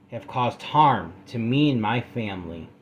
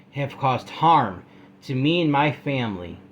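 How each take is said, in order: The two takes are said the same way.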